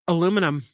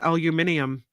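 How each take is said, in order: First: The word is said with four syllables. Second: The word is said with five syllables.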